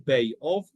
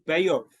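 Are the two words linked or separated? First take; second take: separated; linked. First: The two words are said apart with a break. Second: The two words run together with a gliding link. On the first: The speaker calls it wrong. "We don't say Bay of" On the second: The speaker calls it right. "say Beof and combine those two words"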